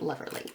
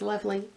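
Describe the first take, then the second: First: It is said with an extra R sound. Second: It is said without an extra R sound. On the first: The speaker calls it wrong. "not loverly" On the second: The speaker calls it right. "I know the word is lovely"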